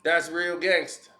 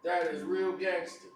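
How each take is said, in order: First: Sarcastic. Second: Quieter sarcastic repeat. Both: Real, not acted. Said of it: "[name] finna battle a woman".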